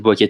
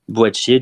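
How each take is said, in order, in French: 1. Le nom se prononce avec un k dur. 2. Le nom se prononce avec un sh doux. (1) "je l'ai prononcé Boakier tout à l'heure" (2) "il faut bien le prononcer"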